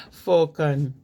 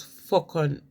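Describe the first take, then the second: First: Fokon said a bit louder, FOH-kən, a short fall; dialect Fokon. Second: Fokon said slowly, FOH-kon, two drawn-out syllables; dialect Fokon. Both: Shown as a demonstration. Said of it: "folks as Fokon".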